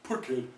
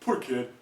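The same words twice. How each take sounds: First: The vowel in 'poor' is short and schwa-like. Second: The vowel in 'poor' is short and schwa-like.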